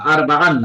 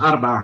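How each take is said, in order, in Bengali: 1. শব্দের শেষে একটি যোগ করা n ধ্বনি আছে। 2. শব্দটি স্বরধ্বনি দিয়ে শেষ হয়, n নেই। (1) "না" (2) "আরবাআ আরবাআন না আরবাআ"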